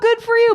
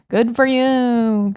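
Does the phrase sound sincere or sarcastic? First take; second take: sincere; sarcastic. First: It sounds warm and sincere. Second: It sounds dismissive and sarcastic. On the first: The speaker is genuinely pleased for the listener. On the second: The speaker does not really care. "but really, what you're saying is like"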